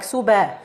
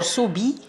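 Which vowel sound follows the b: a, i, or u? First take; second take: a; i. First: The b is followed by an open a vowel. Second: The b is followed by an i vowel. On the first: "open the mouth to, to add Fatha like Suba" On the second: "Subi by lowering the jaw"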